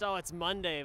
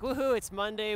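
First: It is said in a depressed tone. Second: It is said in an excited tone.

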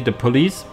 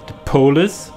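First: The word is said in a plain, standard accent. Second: The word is said in a Scottish accent.

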